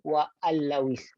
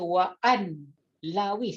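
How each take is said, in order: First: The n sound merges into a doubled l. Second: The n sound is pronounced before the l. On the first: The speaker calls it right. "Hilangkan nun tu, terus masuk pada lam" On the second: The speaker calls it wrong. "dia tak boleh baca wa an lawis"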